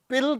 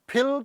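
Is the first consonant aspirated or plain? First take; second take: plain; aspirated. First: The first consonant is plain, without aspiration. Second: The first consonant is strongly aspirated. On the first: The speaker calls it wrong. "ਅਸੀਂ ਕਹਿੰਦੇ ਹਾਂ ਵੀ ਇਹ ਤੂੰ ਪਿਲ ਕਹਿ" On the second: The speaker calls it right. "ਜੋ ਕਿ ਉਹਦਾ ਸਹੀ ਪ੍ਰੋਨਾਂਸੀਏਸ਼ਨ ਹੈ"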